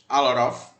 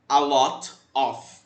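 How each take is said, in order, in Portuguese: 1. É rápido, com o T quase apagado. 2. É falado com o T bem pronunciado. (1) "da forma americana, uma forma bem mais rápida, e cortando praticamente o T" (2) "a forma britânica, onde você coloca esse T e o T ele é pronunciado"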